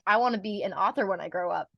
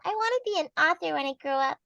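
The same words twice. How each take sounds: First: It is said in a normal adult voice. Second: It is said in a small child's voice.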